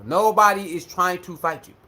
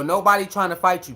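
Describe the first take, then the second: First: "Nobody is trying to fight you" spelled out word by word, low; deliberate emphasis. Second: Said in the usual way. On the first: Real, not acted. Repeats it word by word, calming.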